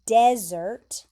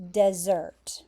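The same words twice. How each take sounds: First: "desert" as DEZ-ert, loud opening syllable; desert, first-syllable stress. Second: "dessert" as duh-ZERT, weight on the end; dessert, end stress. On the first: Teacher contrasting two confusing words, "desert" stressed on DEZ. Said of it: "So this word is". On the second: Teacher contrasting two confusing words, "dessert" stressed on ZERT. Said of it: "and this word is". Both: Shown as a demonstration.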